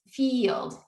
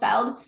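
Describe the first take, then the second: First: The vowel is a long 'ee' sound. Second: The vowel is a short 'eh' sound. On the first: The speaker calls it right. "but it's eel, eel, eeld" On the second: The speaker calls it wrong. "I'm hearing an L, eh, eh, eld"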